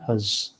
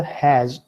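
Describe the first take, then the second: First: "hus" said short with a neutral schwa vowel, lower; weak, unstressed "hus"; reduced weak form. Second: "has" said in full with a clear open a; stressed, unreduced "has"; full strong form. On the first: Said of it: "or simply". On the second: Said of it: "you can pronounce it either". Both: Shown as a demonstration.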